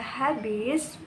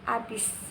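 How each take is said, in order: First: The word begins with an audible h sound. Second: The word begins directly with the vowel. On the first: This is the standard pronunciation. The speaker calls it right. "ada habis" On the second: This is a non-standard pronunciation. The speaker calls it wrong.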